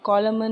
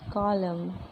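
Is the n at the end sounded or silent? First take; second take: sounded; silent. First: The n at the end is sounded. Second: The n at the end is silent. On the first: The speaker calls it wrong. "नहीं बोलते" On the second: The speaker calls it right. "हम क्या बोलेंगे?"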